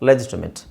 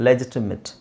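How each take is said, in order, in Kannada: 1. ಕೊನೆಯ ಉಚ್ಚಾಂಶದಲ್ಲಿ ಚಿಕ್ಕ 'it' ಸ್ವರ ಇದೆ. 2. ಕೊನೆಯ ಉಚ್ಚಾಂಶದಲ್ಲಿ ಚಿಕ್ಕ 'it' ಸ್ವರ ಇದೆ.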